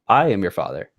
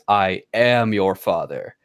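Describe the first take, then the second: First: The stress falls on the word I. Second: The stress falls on the word am. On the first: The speaker calls it right. "the inflections on the I" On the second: The speaker calls it wrong. "Like the weird inflection on am"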